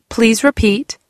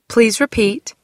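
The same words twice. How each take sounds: No difference in how they are said.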